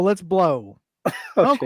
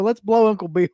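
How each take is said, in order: First: There is a pause after 'blow'. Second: It runs on with no pause after 'blow'.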